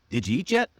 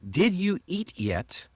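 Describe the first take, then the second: First: The words are linked and reduced together. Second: Each word is said separately and fully.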